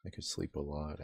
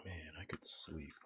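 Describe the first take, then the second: First: Said in the usual way. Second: Soft ASMR whisper. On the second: Pretend. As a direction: breathe the words, no voice. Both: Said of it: "hashtag A S M R".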